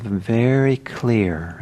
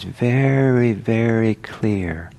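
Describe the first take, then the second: First: Said in the usual way. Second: VERY, VERY drawn out slowly, pitched up; emphatic. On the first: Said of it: "I wanna em-, emphasize". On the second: Real, not acted. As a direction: stretch "very, very" to emphasize how clear. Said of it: "and I wanna em-, emphasize".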